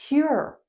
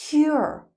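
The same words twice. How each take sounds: No difference in how they are said.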